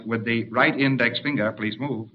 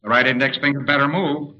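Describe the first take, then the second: First: Soft, polite order, easing off at the end; understated cheerful politeness, trailing softly; mild cheerful request. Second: Mild warning, pressed a little; understated impatient command; firmer order. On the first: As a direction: ask it gently and pleasantly. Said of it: "in a cheerful tone of voice". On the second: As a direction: give the order with more insistence. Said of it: "he'll get to the point after a while". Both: Acted.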